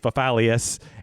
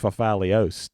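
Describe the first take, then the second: First: The name ends with an 'ee-us' sound. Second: The name ends with an 'ee-os' sound. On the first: This is how the family says the name. "I say Fafalius" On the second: This is probably the original pronunciation. "it's actually it's probably Fafalios"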